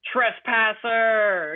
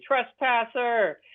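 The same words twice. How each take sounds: First: Slow drawn-out mock skeleton yell; skeleton screaming. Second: Skeleton yelling. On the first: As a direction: act out an angry skeleton guard, slow and stretched. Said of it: "he was screaming". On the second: Retold or imitated. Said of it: "he's very upset with me".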